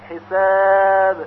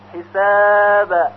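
First: The final b has no vowel after it. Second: The final b leans toward an a sound. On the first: The speaker calls it right. "بلکه باید به طور ساکن تلفظ بشه" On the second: The speaker calls it wrong. "همچنین به طرف فتحه حساب این هم باز غلط هست"

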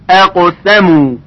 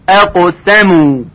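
No difference in how they are said.

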